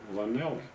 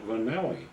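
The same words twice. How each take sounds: Both takes have the same delivery.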